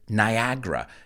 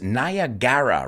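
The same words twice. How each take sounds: First: The second vowel is dropped, leaving fewer syllables. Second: Every vowel in the word is pronounced. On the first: This is how people actually say it. "we pronounce it Niagara" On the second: This is how the spelling looks. "You look at it and it's Niagara"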